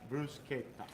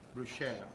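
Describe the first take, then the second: First: The middle consonant is a k sound. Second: The middle consonant is an sh sound. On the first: The speaker calls it right. "it is actually bruschetta" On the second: The speaker calls it wrong. "they see and they think it's uh, bruschetta"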